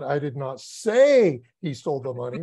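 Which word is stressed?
say. The stress is on the word say.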